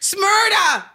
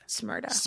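First: The name is said loudly. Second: The name is said at normal volume.

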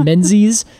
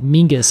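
First: The name is said with a z sound. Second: The name is said with an ng sound. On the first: "Every time I read menzies" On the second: "the traditional Scottish way"

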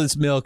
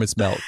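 First: The vowel sounds like the one in 'mill'. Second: The vowel sounds like the one in 'mell'. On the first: The drink is cold. "If it's cold" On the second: The drink is warm. "If it's warm"

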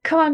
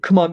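First: It is said in a high, feminine voice. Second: It is said in a deep, masculine voice. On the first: "Like in this feminine voice" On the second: "the most masculine voice you can"

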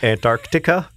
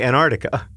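First: Every sound, including the k, is carefully enunciated. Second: It is said quickly with reduced sounds. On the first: "you really went for the enunciation on that one" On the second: "If I don't say Antarctica in slow motion, I say Antarctica. And then I feel like I'm doing it wrong"

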